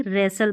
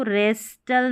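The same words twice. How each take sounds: First: रेसल with silent T; correct pronunciation. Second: रेस्टल with the T sounded; wrong pronunciation. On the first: Teacher giving the right reading, रेसल without T. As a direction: say रेसल, s straight into l. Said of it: "रेसल पढ़ेंगे". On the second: Teacher showing what not to read, रेस्टल with spoken T. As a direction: say रेस्टल with an audible t. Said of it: "रेस्टल नहीं". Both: Shown as a demonstration.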